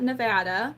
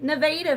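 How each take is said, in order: First: It uses the usual pronunciation, as for the state. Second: It uses the local Missouri pronunciation of the name. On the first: This is how the state's name is usually said. The speaker calls it wrong. "not Nevada" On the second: This is how locals name the Missouri town. The speaker calls it right. "In Missouri, they call it Nevada. Like straight up, that's how they pronounce it"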